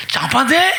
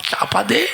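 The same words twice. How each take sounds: First: Higher, rising urgent command; raised-pitch acted order. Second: Said in the usual way. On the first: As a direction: repeat it higher, rising at the end.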